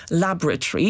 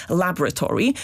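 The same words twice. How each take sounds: First: LABoratory with stress on the first syllable. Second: "laboratory" as American LAB-ra-tor-ee, first syllable stressed; American pronunciation. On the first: Expert asks why not stress first syllable, LAB-ra-tory. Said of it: "akcentem na pierwszą sylabę laboratory". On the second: Expert contrasts the American stress on "laboratory". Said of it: "tak jak Amerykanie też z akcentem na pierwszą sylabę". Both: Shown as a demonstration.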